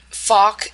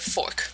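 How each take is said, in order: First: "fork" with no r, like "fawk"; dropped R. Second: Said in the usual way. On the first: Shown as a demonstration. Lecturer contrasting dialect with standard, r-less "fork". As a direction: leave the r out of "fork". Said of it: "fork instead of fork". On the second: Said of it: "instead of fork".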